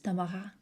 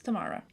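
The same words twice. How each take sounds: First: The name has a French pronunciation. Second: The name has an English pronunciation. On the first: "In France it's Tamara" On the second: "in English it's Tamara"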